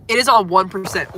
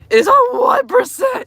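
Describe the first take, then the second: First: Said in the usual way. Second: Far higher and louder, in mock panic; alarmed shriek. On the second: Real, not acted. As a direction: squeal it like the phone is dying now. Phone about to die.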